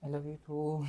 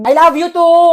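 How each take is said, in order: First: Very soft, low mumbled reply; barely audible. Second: High, loud shouted reply; loud enough to hear. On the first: Friend answering best friend's I love you, barely audible. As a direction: return it almost under your breath. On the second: Friend told they can't be heard, shouting it back. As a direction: belt it back so it surely carries. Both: Acted. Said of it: "di ko marinig".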